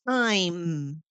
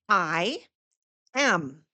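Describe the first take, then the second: First: The two words merge into one syllable. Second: Both words are said in full.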